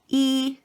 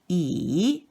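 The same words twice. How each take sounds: First: The syllable is said with the first tone. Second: The syllable is said with the third tone. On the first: "accent number one" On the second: "accent number three"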